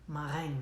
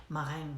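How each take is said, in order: Both takes have the same delivery.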